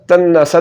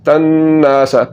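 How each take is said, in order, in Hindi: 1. "n" के बाद वाला स्वर छोटा है। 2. "n" के बाद वाला स्वर लंबा है। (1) "तन्नसा तन्नसा तो ये गलत है" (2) "नून को लंबा करके अलिफ की आवाज़ को आपने पढ़ना है"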